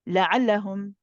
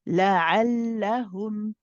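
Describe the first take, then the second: First: The first lam is rushed and short. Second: The first lam is held a little longer. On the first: The speaker calls it wrong. "you don't say la'allahum ... This lam is um you, is too rushed" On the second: The speaker calls it right. "the first joining lam you hold for the tawassut"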